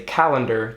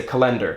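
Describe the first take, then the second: First: Calendar stressed on the first syllable; usual syllable stress. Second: Calendar stressed on the second syllable; wrong syllable stress. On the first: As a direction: say calendar as CAL-en-dar. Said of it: "every word has an emphasis on a syllable". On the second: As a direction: say calendar as ca-LEN-dar. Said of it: "you would say calendar, you wouldn't say calendar". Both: Shown as a demonstration.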